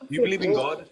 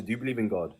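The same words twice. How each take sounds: First: Pressing the question sharply and higher; pointed demand. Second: Said in the usual way. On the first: Real, not acted. Host pressing a caller for a yes or no, sharply. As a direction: demand a straight answer, pitched up. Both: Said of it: "Just answer".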